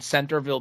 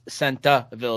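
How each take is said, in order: First: The R is pronounced, without a New England accent. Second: The R is dropped, in a New England accent.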